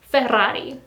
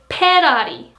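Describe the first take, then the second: First: It begins with an F sound. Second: It begins with a P sound. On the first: "I'm trying to pronounce this one" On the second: "In Korean, it is Ferrari. Again, there is no F sound"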